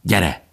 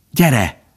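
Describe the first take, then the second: First: A short, restrained angry command; mildly cross order to come along. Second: Higher, begging call to come; anxious, beseeching command; pleading. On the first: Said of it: "mondta Bambi haragosan Falinének". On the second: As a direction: implore urgently in a raised pitch. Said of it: "könyörgött Faline". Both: A narrator's reading.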